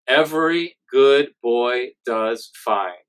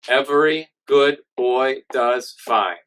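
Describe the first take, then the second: First: It is said nasally, as if with a cold. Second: It is said abruptly, choppy like a robot.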